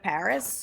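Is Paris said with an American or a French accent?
American. It is said with an American accent. "instead of Paris"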